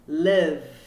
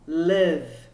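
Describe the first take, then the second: The two takes are said the same way.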